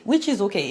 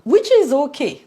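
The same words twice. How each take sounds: First: Said in the usual way. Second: "which is okay" pushed out louder and higher; emphatic okay. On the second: Shown as a demonstration. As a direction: lean hard on "which is okay" like a concession.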